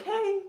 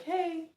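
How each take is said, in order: First: A bright, much higher "Hey." said with a smile; smiling hey. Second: Friendly hey. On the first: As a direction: greet him cheerfully, smiling, pitch lifted way up. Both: Retold or imitated. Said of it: "literally with a smile".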